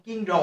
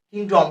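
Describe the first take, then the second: First: কিংডম with a plain unaspirated k; wrong pronunciation. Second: কিংডম with a light breathy খ at the start; aspirated k. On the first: Teacher shows students the wrong version, plain k. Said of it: "কিংডম হবে না". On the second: Teacher shows students the correct version, light খ. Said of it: "উচ্চারণ হালকা খর মতন হবে". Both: Shown as a demonstration.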